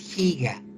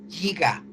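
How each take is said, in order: First: The word is pronounced the Spanish way. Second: The word is pronounced the English way. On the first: The speaker calls it right. "todas estas prefijos se pronuncian en español" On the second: The speaker calls it wrong. "porque lo ha escuchado del inglés"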